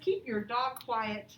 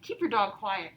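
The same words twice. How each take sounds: First: It is read out plainly. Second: It is said in a firm, commanding tone.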